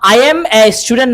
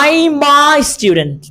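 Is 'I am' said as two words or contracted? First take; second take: two words; contracted. First: I am is said as two full words. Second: I am is contracted into one syllable. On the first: The speaker calls it wrong. "না বলে" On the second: The speaker calls it right. "নেটিভে কিভাবে বলে"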